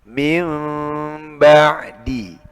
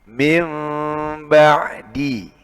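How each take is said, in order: Both takes have the same delivery.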